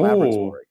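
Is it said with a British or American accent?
American. It is said the American way.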